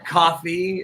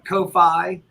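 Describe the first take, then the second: First: The word is pronounced like 'coffee'. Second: The word is not pronounced like 'coffee'.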